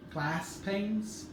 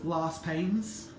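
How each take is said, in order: First: GLASS with a short American "a"; softer American-style correction, short A in GLASS; American accent. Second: GLASS with a long, broad "ah" vowel; British broad A. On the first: Shown as a demonstration. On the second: Real, not acted. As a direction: say GLASS as "glahss", British style. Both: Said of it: "I'll try and do my Texas accent".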